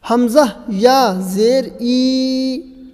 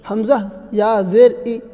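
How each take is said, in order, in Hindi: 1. आख़िरी स्वर थोड़ा सा खींचा जाता है। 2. आख़िरी स्वर छोटा ही रखा जाता है। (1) "थोड़ा खींचा" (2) "ऐसे भी नहीं पढ़ेंगे"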